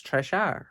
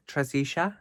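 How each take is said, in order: First: Trisha said as two syllables, "TRISH-a"; correct name. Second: Trisisha said as "tri-SEE-sha" with an extra syllable; mispronounced name. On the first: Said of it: "but that's Trisha". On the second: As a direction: say Trisisha with the added middle "si". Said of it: "'Cause I'd say". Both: Shown as a demonstration.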